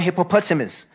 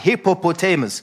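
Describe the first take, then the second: First: It is said with an African pronunciation. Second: It is said with a non-African pronunciation. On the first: The speaker calls it wrong. "They go hippopotamus. I think when you say it like that, you make it sound like a little fly" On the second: The speaker calls it right. "It is not a little fly"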